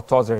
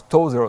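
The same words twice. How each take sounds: First: "Tozer" with a short, open O; "Tozer", first vowel as in top; short O pronunciation. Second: "Tozer" with a long O; "Tozer", first vowel as in toe; long O pronunciation. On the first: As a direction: say "Tozer" as TOZ-er. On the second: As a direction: say "Tozer" as TOH-zer. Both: Shown as a demonstration. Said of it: "I don't know if you pronounce".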